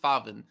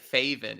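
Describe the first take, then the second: First: The vowel is said as a plain vowel. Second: The vowel is said with an umlaut sound. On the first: The speaker calls it right. "it's Faven" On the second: The speaker calls it wrong. "he doesn't have the umlauts over the A's, so it's not like Faven"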